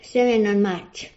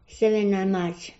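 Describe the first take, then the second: No difference in how they are said.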